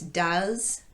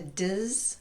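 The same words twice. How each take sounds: First: The word has its full vowel. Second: The word has only a tiny schwa. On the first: "reduce does" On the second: "down to does"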